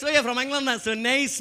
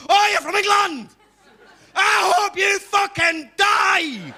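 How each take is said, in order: First: Put-on polite Scottish welcome in an Edinburgh accent; friendly Edinburgh Scottish impression; nice Edinburgh local. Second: Put-on high, loud Glasgow-accented yell; hammed-up furious Glaswegian shouting; unfriendly Glaswegian. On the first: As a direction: greet them pleasantly as an Edinburgh Scot. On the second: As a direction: roar it in a hostile Glasgow accent, drawing out the curse. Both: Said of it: "bit less friendly".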